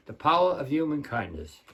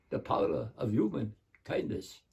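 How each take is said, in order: First: Said in the usual way. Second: Put-on soft Hungarian Dracula accent; Bela Lugosi. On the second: Dracula closes the kindness poem, hushed Hungarian accent. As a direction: close it quietly as a Hungarian vampire. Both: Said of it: "This is him saying my poem".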